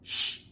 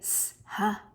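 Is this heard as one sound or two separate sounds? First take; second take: one sound; two sounds. First: One continuous hushing sound is said. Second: Two separate sounds, s then h, are said. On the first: The speaker calls it right. "it makes one sound" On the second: The speaker calls it wrong. "We don't say s, ha, and blend it"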